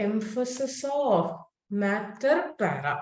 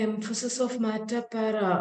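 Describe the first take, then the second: First: Slow and deliberate, word by word; measured teacher's dictation. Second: Fast, tossed-off repeat; brisk classroom reminder; quick recap. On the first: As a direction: spell it out slowly for the class. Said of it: "മക്കളെ, emphasis of matter para". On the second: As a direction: rattle it off as a reminder. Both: Shown as a demonstration.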